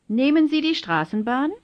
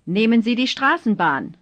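First: Rising tune, voice lifting at "Straßenbahn"; question intonation. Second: Falling tune, voice dropping at "Straßenbahn"; plain falling end on "Straßenbahn"; statement intonation. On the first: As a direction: ask it, climbing at the end of "Straßenbahn". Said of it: "then as questions". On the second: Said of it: "first as statements". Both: Shown as a demonstration.

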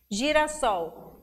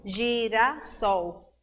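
First: Said in the usual way. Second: "girassol" slowly split as gi-ra-ssol; syllable by syllable. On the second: Shown as a demonstration. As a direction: clap out "girassol" in three separate beats. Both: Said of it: "quer saber o número de sílabas".

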